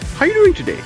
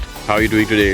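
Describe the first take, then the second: First: The greeting is lively with a varied pitch. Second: The greeting is flat and routine in pitch. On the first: The caller is genuinely interested in the listener. The speaker calls it right. "So the perfect opening is you go like" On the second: It is just an automatic everyday courtesy. The speaker calls it wrong. "sounds like you're saying, you know, just the, the normal courtesy"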